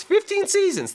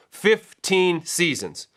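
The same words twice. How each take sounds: First: High-pitched disbelief on FIFTEEN SEASONS; amazed emphasis. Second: Drawn-out FIFTEEN SEASONS, each word weighted; slow emphasis. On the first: Host marvelling at a coach's long tenure, high-pitched amazement. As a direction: squeal the figure out in amazement. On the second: Host stressing a coach's long tenure, slow emphasis. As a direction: stretch out the figure to let it sink in. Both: Real, not acted.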